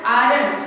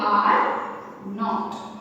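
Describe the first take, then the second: First: 'aren't' said firmly as one word; louder model of aren't; aren't pronounced contracted. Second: 'are' and 'not' said apart; full form, are, then not. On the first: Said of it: "What is the pronunciation?". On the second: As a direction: pause between are and not. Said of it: "इसका full form हम बोलेंगे". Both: Shown as a demonstration.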